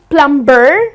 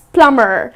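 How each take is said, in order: First: The B sound is pronounced. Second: The B sound is silent. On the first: The speaker calls it wrong. "It's not plumber" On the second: The speaker calls it right. "the B is silent"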